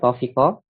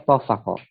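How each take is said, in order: First: The middle vowel is an 'i' sound. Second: The middle vowel is an 'a' sound. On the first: "kita baca kasrah fa-nya" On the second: "kita baca fathah fa-nya"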